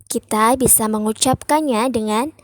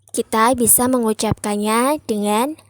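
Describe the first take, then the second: Both takes have the same delivery.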